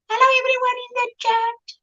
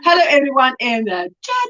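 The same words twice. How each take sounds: First: It is said in a teasing put-on voice. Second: It is said in her natural voice.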